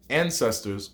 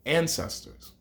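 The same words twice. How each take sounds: First: Said in the usual way. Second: "ancestors" rising, softer; stressed term. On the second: Shown as a demonstration. Teacher spotlighting the word for students, rising. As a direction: hold "ancestors" up like a key word. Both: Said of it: "I also talk about".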